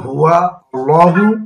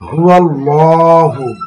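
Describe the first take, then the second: First: The two words are said separately, unlinked. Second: The two words are joined, the alif dropped.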